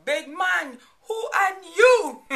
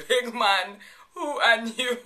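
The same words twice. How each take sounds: First: Loud, high mock challenge on "who are you"; sassy challenge. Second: Laughing through it. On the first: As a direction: throw it down like a playful dare. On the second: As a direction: giggle the phrase out. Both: Shown as a demonstration. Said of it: "I still say it to this day".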